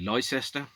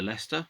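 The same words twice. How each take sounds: First: It is sounded out literally, every part said. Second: It is said the normal, short way.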